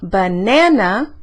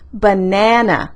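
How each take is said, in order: First: The middle syllable is said at a higher pitch. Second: The middle syllable is drawn out longer. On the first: "Yo puedo subir el tono de esa, de esa sílaba" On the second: "puedo alargar esa sílaba"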